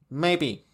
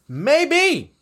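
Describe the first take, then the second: First: "Maybe" low and soft; soft, low afterthought "Maybe"; subdued maybe. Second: MAYBE sung out high, then falling; high, emphatic "Maybe". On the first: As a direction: drop "Maybe" down to a quiet, low answer. Answers own question, subdued take. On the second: Answers own question, first take. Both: Real, not acted.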